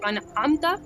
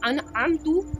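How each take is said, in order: First: The word ends with an 'a' vowel. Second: The word ends with a 'u' vowel. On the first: The speaker calls it right. "ता के ऊपर ज़बर है" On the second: The speaker calls it wrong. "ज़बर को पेश के ज़रिए बदल दिया"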